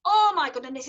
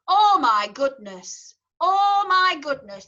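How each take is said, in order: First: "Oh my goodness" in easy Yorkshire with a flat O; Yorkshire accent. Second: Slow, broad Yorkshire "Oh my goodness" with a flat O; Yorkshire accent. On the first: Teacher repeating her Yorkshire phrase in Yorkshire. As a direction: say it the Yorkshire way once more, lighter. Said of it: "that's how I'd say". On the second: Choir teacher showing singers her Yorkshire O in broad Yorkshire. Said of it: "talk in my native tongue and say". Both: Shown as a demonstration.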